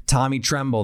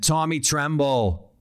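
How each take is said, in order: First: Said in the usual way. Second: Put-on playful Boston accent, name drawn out slowly. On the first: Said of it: "don't you just wanna say that". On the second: Analyst playfully naming a tight end, Boston accent. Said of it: "say that in a Boston accent".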